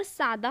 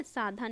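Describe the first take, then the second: First: "सादा" as saa-daa, no breath on d; correct unaspirated d. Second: "साधा" as saa-dhaa, breath after d; wrong aspirated d. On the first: Teacher correcting the word, plain d. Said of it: "सादा होता है". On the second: Teacher warning students of the error, aspirated. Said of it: "साधा नहीं होता". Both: Shown as a demonstration.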